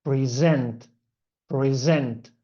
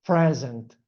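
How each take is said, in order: First: "present" said pre-ZENT, end-stressed; stress on second syllable. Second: "present" said PRE-zent, front-stressed; stress on first syllable. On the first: Teacher showing the verb for introducing, "present" stressed on ZENT. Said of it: "stress in the second syllable". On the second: Teacher showing the gift word, "present" stressed on PRE. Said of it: "stress on the first syllable". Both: Shown as a demonstration.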